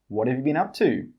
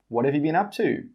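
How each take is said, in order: Both takes have the same delivery.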